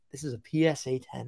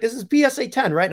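First: Said in the usual way. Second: High-pitched mock Italian accent; hammed-up Italian-accented question. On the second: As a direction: imitate an Italian buyer asking, pitched up. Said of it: "this very nice Italian".

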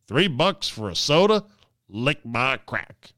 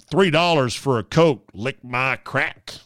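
First: Imitating a rude tourist again; crude airport guy. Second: Mock a cheap loudmouth tourist; imitating a rude tourist; crude airport guy. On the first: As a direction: lay the insult down like a grumpy cheapskate. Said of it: "'Cause he didn't wanna pay three bucks". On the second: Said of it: "heard someone say".

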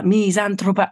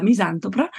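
First: Fix misantropa, stressing the TR cluster; careful correction. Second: Misantropa with T and R swapped, like misantopra; garbled word. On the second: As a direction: stumble over misantropa, swapping the T and R. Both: Real, not acted. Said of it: "problemi con le T e le R".

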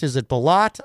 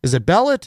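First: "Bellat" stressed on the last syllable, buh-LAHT; trying another pronunciation. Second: "Bellet" stressed on the first syllable, BEL-let; trying one pronunciation. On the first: Host checks viewer Jim's surname, saying "Bellat" as buh-LAHT. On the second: Host checks viewer Jim's surname, saying "Bellet" as BEL-let. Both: Shown as a demonstration. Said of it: "how to pronounce your last name exactly".

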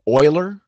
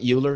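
First: Euler said as OY-ler; correct pronunciation. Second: Euler said wrongly as YOO-ler; mispronunciation. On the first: Debater correcting his opponent on the name, Euler pronounced OY-ler. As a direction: say Euler to rhyme with boiler. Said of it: "It's pronounced Euler". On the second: Debater showing opponent the wrong name, Euler pronounced YOO-ler. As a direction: start Euler with a "you" sound. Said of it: "not Euler". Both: Shown as a demonstration.

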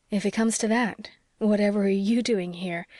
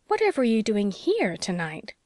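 First: "you" leaned on, turning the question back; stress on YOU. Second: Swooping pitch of mild astonishment; amazed. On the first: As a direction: throw it back with the weight on "you". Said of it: "trying to laugh". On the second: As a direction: ask it in amazement, pitch leaping on "here". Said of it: "exclaimed Anne in amazement". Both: A narrator's reading.

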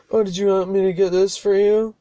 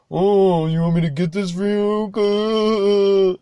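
First: Higher mock-helpful sarcasm; imitating a passenger's sarcastic offer. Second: Higher, louder, slow mock-sweet sarcasm; sarcastic. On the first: Passenger sarcastically offers to get the CDs, mock sarcastic. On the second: Driver mocks the passenger's offer, sarcastic and drawn out. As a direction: ham up the passenger's fake helpfulness. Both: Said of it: "Like, sarcastically".

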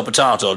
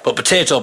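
First: Said in the usual way. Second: Potato said pot-AH-to, broad a; potato with a long ah in the middle; potato, British way. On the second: Shown as a demonstration. Speaker shows how potato sounds his way. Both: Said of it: "potato doesn't make sense".

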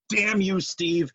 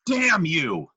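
First: Angry shout. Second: Louder dramatic curse; angry shout. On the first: Cursing the hated Steve. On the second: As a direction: shout it at the sky. Cursing Steve again. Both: Pretend.

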